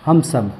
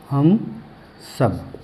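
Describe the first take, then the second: First: Said in the usual way. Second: Word by word. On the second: Shown as a demonstration. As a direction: separate हम and सब as if dictating. वही शब्द अलग-अलग दोहराना. (हम और सब अलग-अलग, रुककर)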